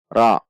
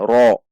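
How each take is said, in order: First: The vowel is an open a sound. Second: The vowel is a rounded o sound. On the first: The speaker calls it right. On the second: The speaker calls it wrong. "Bukan ro. Tidak dengan membulatkan bibir"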